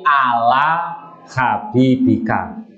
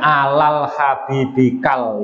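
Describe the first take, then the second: First: Both words end in a vowel, no L. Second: Both words end with an added L sound. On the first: The speaker calls it right. "tapi ala habibika" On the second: The speaker calls it wrong. "jangan alal habibikal"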